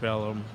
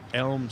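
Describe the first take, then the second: First: The word is said as two syllables. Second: The word is said as one syllable. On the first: The speaker calls it wrong. "they called it Deep Ellum" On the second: The speaker calls it right. "people couldn't pronounce Elm"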